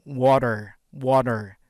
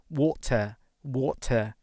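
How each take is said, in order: First: Water with a flapped d and a final r, wodder; loud American water; American accent. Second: Water said wota, no r at the end; British water with a clear t; British accent. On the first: Teacher contrasts for students, American accent. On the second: Teacher contrasts for students, British accent. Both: Shown as a demonstration.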